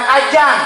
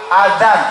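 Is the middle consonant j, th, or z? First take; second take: j; th. First: The middle consonant is a j sound. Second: The middle consonant is a soft th sound. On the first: The speaker calls it wrong. "bukan ajan" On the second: The speaker calls it right. "Pakai dal ada titiknya"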